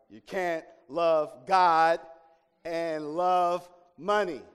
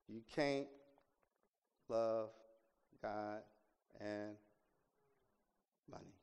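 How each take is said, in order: First: It is said loudly. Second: It is said at a normal, quieter volume.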